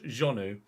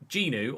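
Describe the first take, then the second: First: The name is said with French sounds. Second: The name is said with English sounds.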